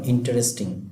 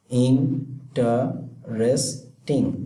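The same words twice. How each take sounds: First: Said in the usual way. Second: interesting broken slowly into four separate syllables. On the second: Shown as a demonstration. Teacher counting out four syllables for students, interesting said syllable by syllable. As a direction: say interesting very slowly, pausing after each syllable. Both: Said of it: "চার সিলেবলের এটা".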